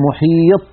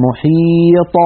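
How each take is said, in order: First: "محيط" with final ط stopped dead, no bounce; wrong-way demo of "محيط", ending shut on ط without echo; ط without qalqalah. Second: "محيط" higher, with a clear echoing release on ط; corrected "محيط", bouncing the final ط open; qalqalah on final ط. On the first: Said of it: "ولا نقول". (نطق "محيط" دون قلقلة الطاء) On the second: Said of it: "بل نقول". (نطق "محيط" بقلقلة واضحة في الطاء) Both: Shown as a demonstration.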